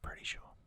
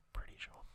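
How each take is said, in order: Both takes have the same delivery.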